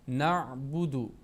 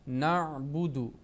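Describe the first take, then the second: No difference in how they are said.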